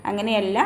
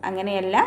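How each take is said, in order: The two takes are said the same way.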